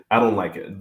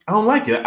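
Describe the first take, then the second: First: Said in the usual way. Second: I don't like it, pitched high and pushed loud; a sharp high insistence on "like"; emphatic. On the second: Real, not acted. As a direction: hit "like" hard and high, fed up. Repeats objection with emphasis.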